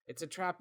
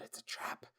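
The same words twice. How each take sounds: First: Higher-pitched, still soft warning; voiced mock warning. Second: Whispered reveal, much softer; hushed warning. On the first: Host repeating the cliffhanger warning, higher and hushed. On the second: Acted. Host recapping the story so far, whispered warning.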